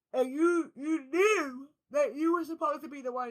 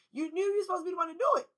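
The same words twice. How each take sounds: First: Words stretched through a yawn. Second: Said in the usual way. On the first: Real, not acted. To the viewer, mid-sentence, speaking through a real yawn. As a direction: talk through a big yawn. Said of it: "excuse me, yawning". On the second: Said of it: "excuse me".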